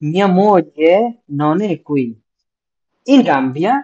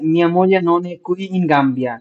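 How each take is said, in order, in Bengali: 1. qui-এর ঠিক পরেই একটি বিরতি আছে। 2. qui-এর পরে কোনো বিরতি ছাড়াই বাক্যটি চলতে থাকে। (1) "কুই এর পরে স্টপ হবে।" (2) "না"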